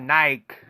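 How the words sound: It is said the European way. "but in Europe, they call it Nike"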